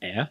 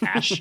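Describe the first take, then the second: First: It is said as a Scandinavian ae vowel. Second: It is said like the English word ash. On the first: "it's pronounced Ä if you're a Scandi" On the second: "he says it's pronounced Ash"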